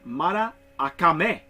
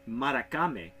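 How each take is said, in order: First: The middle A sound is said twice. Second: The middle A sound is said only once. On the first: The speaker calls it right. "so the A you pronounce twice" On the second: The speaker calls it wrong. "It isn't Maracame because I, I'm pronouncing it like it is"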